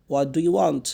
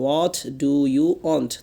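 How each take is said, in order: First: Said in the usual way. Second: What do you want? drawn out word by word, very slow; slow teacher's repeat; very slow drill. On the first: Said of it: "What do you want? (repeated slowly)". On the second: Shown as a demonstration. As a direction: stretch each word so students can repeat. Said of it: "What do you want? (first take)".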